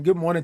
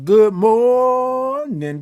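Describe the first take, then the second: First: Said in the usual way. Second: High, long-held "morning", stretched on the first syllable; big high stretched-out morning greeting; drawn-out greeting. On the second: Real, not acted. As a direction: sing out "good morning", holding "mor-" very long. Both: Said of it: "I love all them O's and R's and I N Gs".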